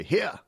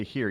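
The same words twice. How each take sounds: First: "here" said higher with a rising tune; drawled accented here. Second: Said in the usual way. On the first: Shown as a demonstration. Host demoing the right "here", rising. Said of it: "you say". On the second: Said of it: "You don't say".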